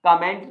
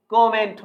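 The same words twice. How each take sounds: First: कमेंट as kuh-MENT, short first vowel; weak schwa opening on कमेंट; wrong pronunciation. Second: कमेंट as KOM-ent, long open o; correct pronunciation. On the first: Teacher negating the common habit, wrong pronunciation. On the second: Teacher correcting students, correct pronunciation. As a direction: stretch the first vowel of कमेंट into o. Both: Shown as a demonstration. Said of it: "कमेंट नहीं कमेंट होता है".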